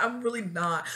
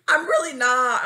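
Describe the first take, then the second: First: Said in the usual way. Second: Loud, higher emphatic denial; emphatic insistence. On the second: Real, not acted. Confessing they aren't used to rejection, emphatic insistence. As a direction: hit it hard and high. Insists, then repeats softer.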